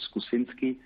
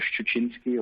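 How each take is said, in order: First: The surname has an anglicized English pronunciation. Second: The surname has its native Polish pronunciation.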